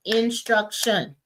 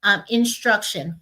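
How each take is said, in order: First: Teacher stretching each syllable of instruction; syllables drawn out slowly. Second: Said in the usual way. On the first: Shown as a demonstration. Teacher modeling syllables of instruction for the class, slowly. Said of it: "for example". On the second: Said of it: "So we wanna say".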